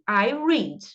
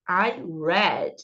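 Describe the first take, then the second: First: The verb has a long ee vowel, like reed. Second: The verb has a short e vowel, like red. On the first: It is the present tense. "eu leio" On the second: It is the past tense. "a pronúncia é igualzinha à palavra vermelho em inglês"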